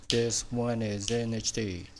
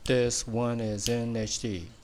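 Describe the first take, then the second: Both takes have the same delivery.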